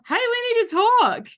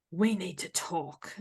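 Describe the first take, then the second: First: Much higher, louder, bright and eager; cheery we need to talk. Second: Ominous we need to talk. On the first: Showing how a text can read as friendly, high and eager. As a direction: sing it out like good news. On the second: Showing how a text can read as a threat, quiet and heavy. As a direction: say it as a dreaded summons. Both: Shown as a demonstration. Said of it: "the words are exactly the same".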